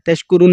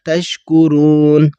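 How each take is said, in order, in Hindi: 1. यह स्वर छोटा बोला जाता है, खींचा नहीं जाता। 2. यह स्वर खींचकर लंबा बोला जाता है। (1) "तशकुरून नहीं पढ़ा" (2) "इसे भी हमने खींच के पढ़ा"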